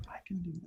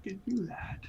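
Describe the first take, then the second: First: Softer still, a hush; whisper. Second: Sneaky stage whisper. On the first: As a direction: barely whisper it. Repeated whisper. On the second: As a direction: whisper it like hiding. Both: Pretend.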